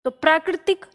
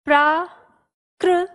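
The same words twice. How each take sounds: First: Said in the usual way. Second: प्राकृतिक drawn out slowly syllable by syllable; slow dictation. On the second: Shown as a demonstration. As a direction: spell it slowly for the class. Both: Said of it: "इस तरह से".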